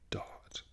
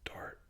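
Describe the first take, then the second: First: The T is clear and the R is silent. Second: The R is sounded and the T is weak. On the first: "in the posh English, you would pronounce the T and you would not pronounce the R" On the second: "With the American and the West Country, you would pronounce the R and not so much the T"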